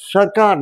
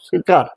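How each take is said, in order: First: The first vowel sounds like 'a'. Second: The first vowel sounds like 'i'. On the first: The speaker calls it right. "His সরকার not সিরকার" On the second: The speaker calls it wrong. "সিরকার বলে ওই উচ্চারণটা আমি ধরতে পারছি না"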